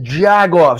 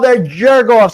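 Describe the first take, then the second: First: The first syllable is said as 'jag'. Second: The first syllable is said as 'jerk'.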